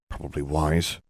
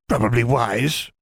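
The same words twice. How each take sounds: First: It is said in a normal voice. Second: It is said in a high falsetto voice.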